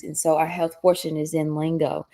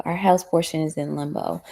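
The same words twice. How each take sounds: First: "lingo" said by mistake instead of limbo; slip of the tongue. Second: "limbo" said correctly, plainly; corrected word. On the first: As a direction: trip on the word, say "lingo". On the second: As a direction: fix it, say "limbo" cleanly. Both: Real, not acted.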